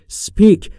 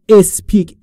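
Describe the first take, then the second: First: The word starts directly with the s sound. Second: A short vowel is added before the s sound. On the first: The speaker calls it right. "در مورد تلفظش speak دقت بکنید" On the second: The speaker calls it wrong. "نگفتم اسپیک، ا نداره اولش"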